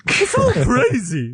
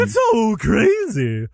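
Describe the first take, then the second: First: High, slow clown voice; drawn-out goofy clown; silly clown. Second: High, very slow clown drawl; silly clown. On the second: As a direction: stretch it out like a clown. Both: Acted. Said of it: "I was going for any kind of clown voice".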